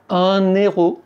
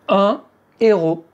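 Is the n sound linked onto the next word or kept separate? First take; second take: linked; separate. First: The n links into the next word. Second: The n stays separate from the next word. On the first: The speaker calls it wrong. "On ne dit pas" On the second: The speaker calls it right. "Vous ne devez pas faire la liaison"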